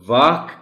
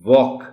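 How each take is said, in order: First: The vowel is an open, unrounded 'aa' sound. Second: The vowel is a rounded 'aw' sound. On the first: The speaker calls it wrong. "जो बच्चे वाक कहते हैं" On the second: The speaker calls it right. "ये जो ऑ sound है इस word में"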